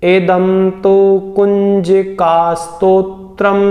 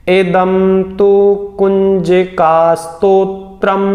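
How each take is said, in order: The two takes are said the same way.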